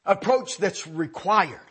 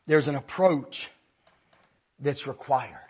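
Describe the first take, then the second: First: "Approach that's required" drawn out slowly, each word weighed; slow emphatic repeat. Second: Said in the usual way. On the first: Shown as a demonstration. Preacher driving home his point to the congregation, slow and emphatic. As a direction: lean on "Approach" and stretch the phrase out.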